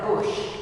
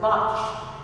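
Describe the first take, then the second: First: The name rhymes with push. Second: The name has an open 'o' vowel. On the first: This is how the man's family says the name. "his descendants pronounce that Bush" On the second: This is how the man himself said the name. "my recollection is that he pronounced it Bosch"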